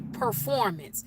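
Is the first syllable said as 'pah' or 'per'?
per. The first syllable sounds like 'per'. "we don't say performance"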